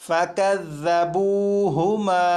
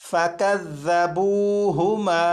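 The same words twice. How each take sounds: Both takes have the same delivery.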